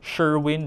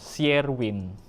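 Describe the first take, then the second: First: The name begins with a 'sh' sound. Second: The name begins with an 'sy' sound. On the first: The original English pronunciation. "S H sounds" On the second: The Filipino-adapted pronunciation. "become S Y"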